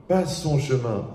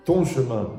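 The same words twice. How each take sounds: First: "pas son" marked out, then falling away; emphatic "pas son", as opposed to "ton"; stress on PAS SON. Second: "ton" punched to set up a contrast; emphatic "ton", as opposed to "son"; stress on TON. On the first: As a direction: lean on "pas son" to reject it. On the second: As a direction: lean firmly on "ton". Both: Shown as a demonstration. Contrasts your path with his.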